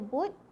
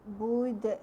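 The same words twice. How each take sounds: First: The final d stops flat with no bounce. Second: The final d ends with an echoing bounce. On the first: The speaker calls it wrong. "siapa yang baca bud kurang tepat ataupun salah" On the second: The speaker calls it right. "Yang betul ialah kita bunyikan a'bud"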